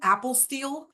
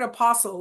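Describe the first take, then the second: First: It sounds like the phrase 'apple steal'. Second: It sounds like the word 'apostle'. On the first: "almost like if you're stealing an apple" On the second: "like the twelve apostles"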